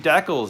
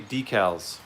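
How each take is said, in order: First: It is pronounced with a Canadian accent. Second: It is pronounced with an American accent. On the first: "up here in North, eh, we say decals" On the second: "For you, Thomas, I'll say decals"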